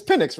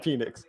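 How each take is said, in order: First: "Penix" as PIN-ix, higher, checking; corrected pronunciation. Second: "Penix" as PEE-nix, with long ee; wrong pronunciation. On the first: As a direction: say "Penix" with a short first vowel. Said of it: "It's Penix, right?". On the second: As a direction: say "Penix" wrongly, stretching the first vowel to ee. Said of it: "I know it's not Penix". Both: Shown as a demonstration.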